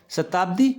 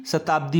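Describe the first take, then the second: First: शताब्दी with short final i, rising; short-i misreading. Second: शताब्दी with long final dee. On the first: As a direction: clip the di ending of शताब्दी, voice rising. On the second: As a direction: stretch the last vowel of शताब्दी. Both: Shown as a demonstration. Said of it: "यहाँ बड़ी की मात्रा आएगी".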